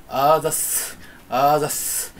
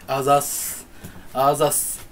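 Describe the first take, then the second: No difference in how they are said.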